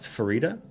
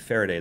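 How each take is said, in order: First: The name ends like the word fajita. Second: The name ends like the word day. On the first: "It's pronounced Farida. ... Farida as in fajita" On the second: "I was pronouncing it Faraday the whole time"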